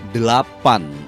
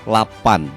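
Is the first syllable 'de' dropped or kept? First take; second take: kept; dropped. First: The word is said with all three syllables. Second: The word is said without its first syllable. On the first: The speaker calls it right. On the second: The speaker calls it wrong.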